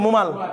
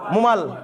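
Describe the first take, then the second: No difference in how they are said.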